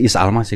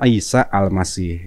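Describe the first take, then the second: First: The name has plain Indonesian sounds, no Arabic articulation. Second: The name has careful Arabic-style sounds and articulation. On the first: This is how it was said in the old days. "Belum pakai tajwid" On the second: This is how it is said nowadays. "Kalau sekarang kan"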